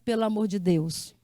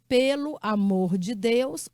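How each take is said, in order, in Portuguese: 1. As palavras são ditas juntas, como uma só palavra. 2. Cada palavra é dita separadamente e com clareza.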